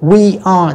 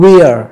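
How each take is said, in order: First: "We are" as two full words; both words of "We are" clearly sounded; full form. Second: "we're" as one syllable; single joined syllable, "we're"; contracted form. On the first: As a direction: say "We are" uncontracted. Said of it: "chúng ta đọc đầy đủ". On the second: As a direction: squeeze "we are" into "we're". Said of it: "thì đọc là". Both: Shown as a demonstration.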